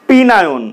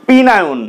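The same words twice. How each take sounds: The two takes are said the same way.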